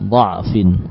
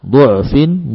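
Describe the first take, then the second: First: The first vowel is an 'a' sound. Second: The first vowel is a 'u' sound. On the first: "dengan fathah semua" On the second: "atau juga dengan dhammah"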